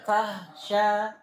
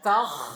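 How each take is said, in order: First: The kh sound is weakened into a breathy h. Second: The kh sound is pressed hard into a rasp. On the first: "Enggak boleh juga tahsya, tahsya seperti ha" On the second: "Jangan dibaca takh, enggak boleh, berlebihan"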